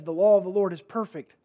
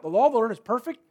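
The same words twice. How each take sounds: First: "perfect" weighed, falling at the end; stress on perfect. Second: "law" stressed, the line rising into a question. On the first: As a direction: let the word "law" carry the weight, falling. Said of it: "Man, perfect". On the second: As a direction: ask it, "law" punched and rising at the end. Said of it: "that should jump out". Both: Shown as a demonstration.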